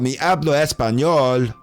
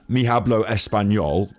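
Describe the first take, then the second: First: It is spoken with a put-on Spanish accent. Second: It is spoken with an English accent. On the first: "I'm doing a fake accent" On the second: "I'm saying it in my English accent"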